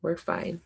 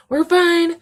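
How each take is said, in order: First: Soft, small voice; quietly pulling yourself together; quiet self-soothing. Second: Loud squeaky outburst of being okay; high, loud insistence. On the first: Steadying herself after kitten tears, quiet reassurance. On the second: Recovering from kitten tears, high loud insistence. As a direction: insist brightly, voice shooting way up. Overdone recovery after tearing up. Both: Real, not acted.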